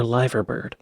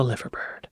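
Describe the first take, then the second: First: "liver bird" with "liver" rhyming with "diver"; long-I pronunciation. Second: "liver bird" with "liver" like the organ; short-I pronunciation. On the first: Viewer corrects the bird's name, "liver bird" with a long I. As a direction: say "liver bird" as LIE-ver bird. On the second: Viewer reads the bird's name, "liver bird" with a short I. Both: Shown as a demonstration. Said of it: "why isn't it called".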